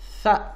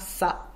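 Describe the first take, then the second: First: It starts with a th sound, tongue out. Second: It starts with a hissing s sound. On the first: The speaker calls it right. "mais c'est fa. Le bout de la langue, il sort" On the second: The speaker calls it wrong. "ce n'est pas ça, comme peuvent penser certains"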